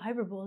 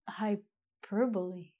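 First: The final e is silent. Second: The final e is pronounced. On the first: The speaker calls it wrong. "I saw this word as a hyperbole. And I thought, wow" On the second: The speaker calls it right. "But it's actually hyperbole"

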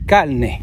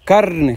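First: The r is pronounced like an l sound. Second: The r is pronounced with strong emphasis. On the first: "hablan las palabras con la L" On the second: "hacen acento en la R... la dicen con más énfasis"

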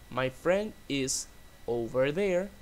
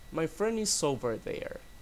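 First: The words are said separately, without linking. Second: The words are linked smoothly together.

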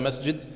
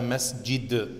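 First: The d sound is plain, with no bounce. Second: The d sound has a strong echoing bounce. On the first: It is read as ordinary text. The speaker calls it right. "Du sagst auf jeden Fall Hada Masjid" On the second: It is recited as in the Quran. The speaker calls it wrong. "Du sagst nicht Hada Masjid"

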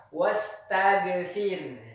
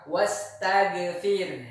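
Both takes have the same delivery.

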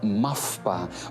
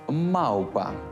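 First: A hard consonant comes before the п. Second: A soft u-like glide comes before the п. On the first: The speaker calls it wrong. "не мавпа" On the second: The speaker calls it right. "треба вимовляти щось середнє між «у» та «в»"

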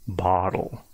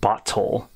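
First: The middle T is a soft D-like tap. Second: The middle T is hard and clearly separated. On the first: The speaker calls it right. "You make it really soft" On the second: The speaker calls it wrong. "I'm not saying bottle, little. It's not overly segmented in that way"

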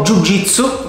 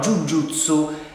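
First: The second part is pronounced jitsu. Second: The second part is pronounced jutsu. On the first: The speaker calls it wrong. "che abbiamo già detto che non è corretto" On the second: The speaker calls it right. "è il modo corretto di dire questa disciplina"

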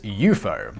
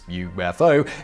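First: It is said as a single two-syllable word. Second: It is spelled out as three separate letters. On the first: This is how the term's originator said it. "So how did he say it? Well, that was" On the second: This is how it is commonly said today. "pretty much everyone pronounces UFO as"

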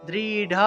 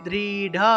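The two takes are said the same way.

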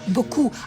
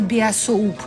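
First: It is said as two short syllables, 'bo-ku'. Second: It is read out as spelled, 'bi-a-soup'. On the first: The speaker calls it right. "по правилам боку" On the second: The speaker calls it wrong. "а не біасоуп"

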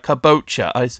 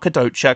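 First: The middle consonant is a 'b' sound. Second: The middle consonant is a 'd' sound. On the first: The speaker calls it right. "I have been saying it wrong this whole time" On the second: The speaker calls it wrong. "Not Kadocha"

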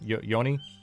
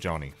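First: The name begins with a soft Y sound. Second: The name begins with a hard J sound. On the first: "try pronouncing my name with a soft J sound" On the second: "you've told me to pronounce it Johnny"

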